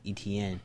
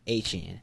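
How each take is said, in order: First: The name is said the common English way. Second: The name is said the French way. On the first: This is how most people say the name. The speaker calls it wrong. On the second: This is how the player says his own name. The speaker calls it right. "the correct pronunciation is"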